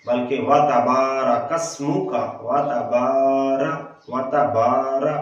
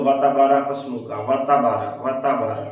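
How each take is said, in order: First: Careful elongated recitation; lengthened ba. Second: वाताबारा with a short clipped बा; hurried wrong recitation; rushed short ba. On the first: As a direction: stretch the बा in वाताबारा. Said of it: "बा को लंबा करना है". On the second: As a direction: rush वाताबारा without lengthening बा. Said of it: "जल्दी करके पढ़ते हैं". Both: Shown as a demonstration.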